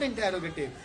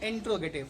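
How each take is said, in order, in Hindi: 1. t और r के बीच एक स्वर बोला जाता है। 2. t और r के बीच कोई स्वर नहीं बोला जाता है। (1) "it's not इंटेरोगेटिव" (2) "it's actually इंट्रोगेटिव"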